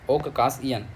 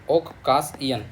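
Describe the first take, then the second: No difference in how they are said.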